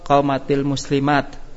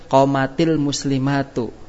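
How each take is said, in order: First: The last word ends with a consonant sound. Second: The last word ends with a vowel sound. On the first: The reading stops at the end of the phrase. "Kalau kita baca waqaf" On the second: The phrase is read as joined to what follows. "itu kita baca sambung"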